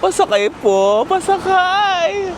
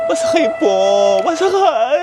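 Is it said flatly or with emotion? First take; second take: flatly; with emotion. First: It is said flatly, without emotion. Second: It is said with strong emotion.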